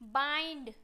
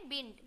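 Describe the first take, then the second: First: The vowel sounds like 'eye'. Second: The vowel sounds like 'ih'. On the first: The speaker calls it right. "आई से पढ़ते हैं" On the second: The speaker calls it wrong. "बिंड पढ़ देंगे"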